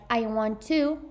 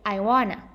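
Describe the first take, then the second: First: Every word is said fully and separately. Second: The words blend into a reduced form.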